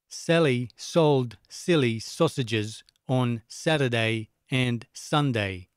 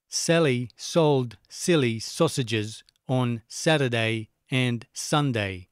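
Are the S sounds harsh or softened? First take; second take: softened; harsh. First: The S sounds are softened by compression. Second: The S sounds are sharp and unprocessed. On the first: The speaker calls it right. "Back on again" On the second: The speaker calls it wrong. "Turn it off"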